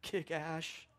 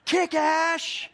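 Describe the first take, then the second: First: Softly quoted cheer, held back; quiet, restrained imitation of sideline screaming; understated retold scream. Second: High, loud sideline yell; full-throated retold cheer; screaming. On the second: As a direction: scream it across the field to cheer him on.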